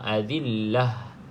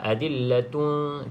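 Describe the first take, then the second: First: The word ends with a soft final h sound. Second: The word ends with a t sound plus 'un'. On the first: The reader stops at this word. "kita nak berhenti, maka bunyikan dia dengan bunyi ha" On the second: The reader continues to the next word. "Kalau kita sambung barulah bunyi uh, huruf ni, huruf ta"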